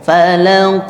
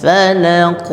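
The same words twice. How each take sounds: Both takes have the same delivery.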